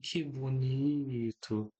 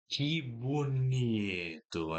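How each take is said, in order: First: It is said warmly, with tender affection. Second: It is said sternly, with sarcastic reproach. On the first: The speaker truly admires what was done. "Ela olhava para você com tanto carinho e falava assim" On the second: The speaker is scolding a misdeed. "faria uma cara de mal"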